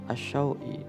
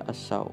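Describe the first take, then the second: First: The word ends with a full extra vowel. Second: The word ends on a short glide. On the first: The reading continues past this word. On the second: The reader stops on this word.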